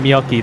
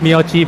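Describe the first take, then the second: First: The last syllable starts with a 'k' sound. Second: The last syllable starts with a 'ch' sound. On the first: The speaker calls it right. "but it's actually Miyoki. but it's actually as ki" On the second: The speaker calls it wrong. "it even says Miyochi, Some of the names are not pronounced as chi"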